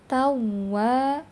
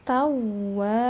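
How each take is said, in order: Both takes have the same delivery.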